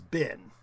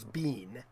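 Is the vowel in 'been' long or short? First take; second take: short; long. First: The vowel is a short i sound. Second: The vowel is a long ee sound. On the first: "We would pronounce it as bin" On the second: "the American long E"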